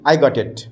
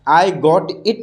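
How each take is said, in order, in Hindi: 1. शब्द बिना रुके एक साथ जुड़कर बोले जाते हैं। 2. शब्द रुक-रुक कर अलग-अलग बोले जाते हैं। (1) "एक साथ बोलेंगे" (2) "आई गॉट इट नहीं बोलेंगे"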